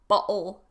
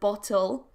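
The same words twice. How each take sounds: First: The middle t is replaced by a glottal stop. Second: The middle t is pronounced as a t. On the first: "You may find it in words like bottle" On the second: "instead of"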